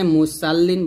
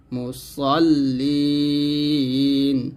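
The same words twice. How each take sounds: First: Quick spoken মুসাল্লিন with a light "সা"; unchanted মুসাল্লিন, light on the s; thin s, mistaken. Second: Slow chanted মুসল্লিন with a heavy, rounded "স"; weighty "স" and long final vowel in মুসল্লিন; thick sad. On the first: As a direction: say মুসাল্লিন with a thin s and open "sal". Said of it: "এখানে মুসাল্লিন বলবেন না". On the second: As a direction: make the "সল" in মুসল্লিন thick, like "sol". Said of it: "স মোটা করে বলতে হবে". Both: Shown as a demonstration.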